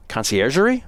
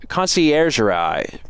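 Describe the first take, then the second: First: Conciergerie with rising doubt, ending in -ee; questioning retry of conciergerie; unsure French. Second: Conciergerie slowly sounded out as con-ci-er-zher-ai; careful slow try at conciergerie; attempted French. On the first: Second try at the prison name, unsure. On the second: Reading the French prison name, slow careful attempt. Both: Shown as a demonstration. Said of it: "how to pronounce these words".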